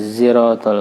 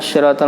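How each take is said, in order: First: It begins with a z sound. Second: It begins with an emphatic s sound. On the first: "zai ziratal mustaqim" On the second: "ada yang shad"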